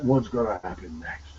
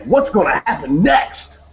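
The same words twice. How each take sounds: First: It is said in a gloomy, negative tone. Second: It is said in an excited, eager tone.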